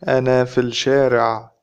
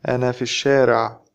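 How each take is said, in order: First: It is spoken slowly with each word clear. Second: It is spoken fast with the L dropped.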